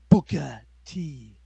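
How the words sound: The name ends in an 'ah' sound, Texan-style. "He says it with an A instead of an er"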